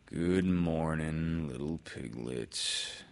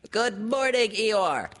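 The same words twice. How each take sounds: First: Slow, drawn-out glum greeting; Eeyore. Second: High, loud squeaky little-creature shout; Piglet's high-pitched holler. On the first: Eeyore answers Piglet's greeting. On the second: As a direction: call out a greeting in a piercing little voice. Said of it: "shouted Piglet". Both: A narrator's reading.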